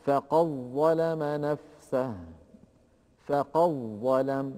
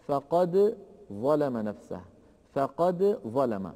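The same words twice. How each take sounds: First: "فقد ظلم" going from qaf straight into doubled ظ; slow "فقد ظلم", no trace of the dal; assimilated dal. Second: "فقد ظلم" with the dal sounded before ظ; slow "فقد ظلم", dal and ظ kept apart; unmerged dal. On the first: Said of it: "من القاف إلى الضاء المشددة مباشرة". ("فقد ظلم" بظاء مشددة دون أثر للدال) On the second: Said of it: "كذلك إن جاء بعد دال قد". ("فقد ظلم" بإظهار الدال) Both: Shown as a demonstration.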